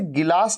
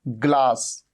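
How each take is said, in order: First: An extra vowel is inserted between g and l. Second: The g and l form one cluster, no vowel. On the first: The speaker calls it wrong. "इसे गिलास नहीं कहना कभी" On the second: The speaker calls it right. "इसे हमेशा क्या कहना, ग्लास"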